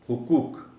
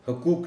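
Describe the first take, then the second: First: The first vowel is a short 'u'. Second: The first vowel is a short 'a'. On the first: The speaker calls it right. "हे पर पेश का ख़ास ख़्याल रखा जाना चाहिए" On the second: The speaker calls it wrong. "हकूक नहीं कहना"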